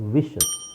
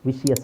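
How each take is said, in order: First: The ending is a single 'shus' syllable. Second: The ending has an extra 'shee-us' syllable. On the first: The speaker calls it right. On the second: The speaker calls it wrong.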